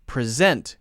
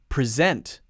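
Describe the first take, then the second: First: The stress is on the second syllable. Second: The stress is on the second syllable.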